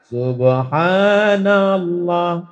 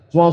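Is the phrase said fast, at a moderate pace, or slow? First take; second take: slow; fast. First: It is said very slowly and drawn out. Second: It is said very fast and slurred. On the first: It takes so long that everyone leaves. "terlalu pelan" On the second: The words are no longer clear. "tasbih bunyinya udah nggak jelas"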